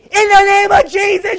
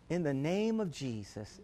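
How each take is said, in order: First: It is said harshly and aggressively. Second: It is said softly and sweetly.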